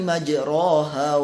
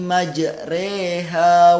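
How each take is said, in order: First: The vowel after r is an open a. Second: The vowel after r leans toward e. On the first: The speaker calls it wrong. "Kalau misalnya kita baca tanpa imalah" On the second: The speaker calls it right. "harus dibaca imalah"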